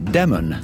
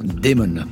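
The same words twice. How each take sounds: First: It sounds like the first name Damon. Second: It sounds like the English word demon. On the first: It is the first name. The speaker calls it right. "c'est bien le prénom" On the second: It means a demon. The speaker calls it wrong. "Damon, ça veut dire démon"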